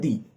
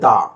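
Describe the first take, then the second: First: The word ends in an 'ee' vowel. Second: The word ends in an 'uh' vowel. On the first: It comes before a word starting with a vowel. "সেক্ষেত্রে সেই টিএইচই এর উচ্চারণ হবে দি" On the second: It comes before a word starting with a consonant. "সেক্ষেত্রে কিন্তু সেই টিএইচই এর উচ্চারণ হবে দা"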